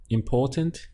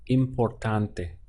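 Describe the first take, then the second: First: Said in the usual way. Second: Importante said slowly as im-por-TAHN-teh; Spanish importante, slowly. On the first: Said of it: "if we had important". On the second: Shown as a demonstration. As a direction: draw out importante with a clear final e. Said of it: "that would become importante".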